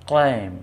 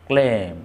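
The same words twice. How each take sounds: The two takes are said the same way.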